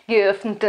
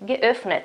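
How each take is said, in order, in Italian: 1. La n passa direttamente nella t finale. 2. Prima della t finale c'è una vocale breve. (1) "no, no, no" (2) "metteremo la nostra e fonetica e poi la t"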